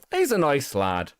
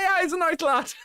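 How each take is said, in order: First: Said in the usual way. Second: High, giggly pub-mate approval, laughing through the words; laughing fond approval. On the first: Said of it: "and you'd be like". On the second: Retold or imitated. Streamer imitating mates about a young lad, high and laughing. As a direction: chuckle it out like an affectionate mate at the pub. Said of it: "It's like".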